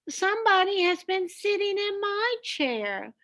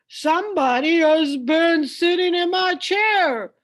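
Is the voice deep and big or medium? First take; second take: medium; deep. First: It is said in a middle-sized voice. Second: It is said in a great big, deep voice.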